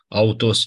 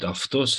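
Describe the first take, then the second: First: The first syllable sounds like au. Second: The first syllable sounds like af. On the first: This is the classical school pronunciation. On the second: This is the modern Greek pronunciation.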